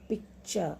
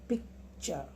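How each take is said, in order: No difference in how they are said.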